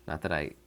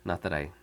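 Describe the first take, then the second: No difference in how they are said.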